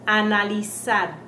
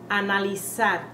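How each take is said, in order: Both takes have the same delivery.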